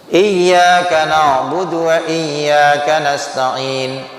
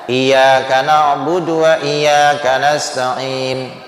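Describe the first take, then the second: First: The y sound is held and doubled. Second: The y sound is short and single. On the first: The speaker calls it right. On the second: The speaker calls it wrong.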